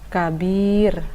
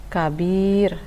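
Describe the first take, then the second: No difference in how they are said.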